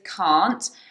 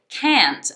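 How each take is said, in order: First: It is said in a British accent. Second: It is said in an American accent. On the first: "British pronunciation is can't" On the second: "American pronunciation, ... they say it can't"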